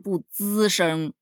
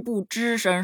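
First: The first syllable starts with a flat 'z' sound. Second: The first syllable starts with a retroflex 'zh' sound. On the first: The speaker calls it right. "是不滋声" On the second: The speaker calls it wrong. "不是不吱声"

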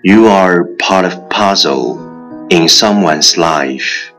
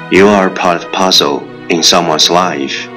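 First: It is said slowly. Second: It is said at normal speed.

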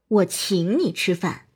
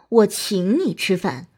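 First: The word 请 carries the stress. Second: The word 请 carries the stress.

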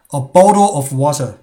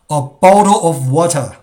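Both takes have the same delivery.

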